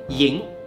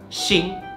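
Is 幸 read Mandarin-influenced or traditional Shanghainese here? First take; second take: Shanghainese; Mandarin-influenced. First: It is read with the traditional Shanghainese pronunciation. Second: It is read with a Mandarin-influenced pronunciation. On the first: The speaker calls it right. "正确的读法应该是幸" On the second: The speaker calls it wrong. "被普通话跑偏了，会读成幸"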